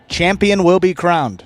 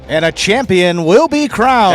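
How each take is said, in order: First: It is said with plain, low energy. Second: It is said with big, emphatic energy.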